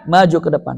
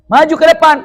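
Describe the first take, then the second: First: Said in the usual way. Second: Called out loud and high; calling forward. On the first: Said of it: "repeated after the call". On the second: Shown as a demonstration. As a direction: call them up to the front.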